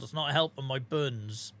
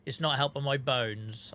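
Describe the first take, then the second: First: Put-on Norfolk accent. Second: Said in the usual way. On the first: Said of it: "in broken Norfolkese". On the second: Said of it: "the words I was supposed to use".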